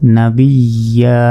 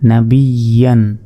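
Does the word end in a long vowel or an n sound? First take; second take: long vowel; n sound. First: The word ends with a long a vowel. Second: The word ends with an n sound. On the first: The reader stops on this word. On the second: The reading continues without stopping.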